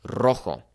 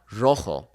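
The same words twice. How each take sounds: First: "rojo" with a trilled R; rolled R. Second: "rojo" with an English R; wrong demo; untrilled R. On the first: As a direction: roll the R in "rojo". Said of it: "We would say". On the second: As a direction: say "rojo" without rolling. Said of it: "It's not". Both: Shown as a demonstration.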